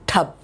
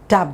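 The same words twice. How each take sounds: First: The t is released with a strong puff of air. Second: The t is released without a puff of air. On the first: "that's how in English you say" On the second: "I'm not taking it with that same English pressure"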